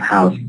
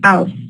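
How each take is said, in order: First: The word begins with an h sound. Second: The word begins without an h sound. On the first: "instead of house" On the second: "the ha in house uh, is dropped like house, they say"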